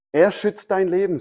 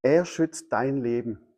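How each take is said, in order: First: Higher, emphatic restatement; emphatic repeat. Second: Slow, measured delivery; measured statement. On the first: Preacher pressing the promise on listeners, higher and emphatic. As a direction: lift the line, driving ER home. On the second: Preacher telling listeners of God's protection, slow and measured. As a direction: let each word land slowly. First take of key line. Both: Real, not acted.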